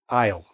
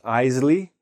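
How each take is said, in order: First: It is said as one syllable with an 'eye' vowel. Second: It is said with an extra syllable, like Isley. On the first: The speaker calls it right. "That's how we pronounce this word" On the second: The speaker calls it wrong. "not Isley"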